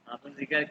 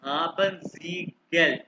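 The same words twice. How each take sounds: First: Said in the usual way. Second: हाबन सी गल drawn out word by word; slow model phrase. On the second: Shown as a demonstration. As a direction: say हाबन सी गल slowly with clear gaps, for a student. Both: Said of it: "अभी सिर्फ इसको सुनो".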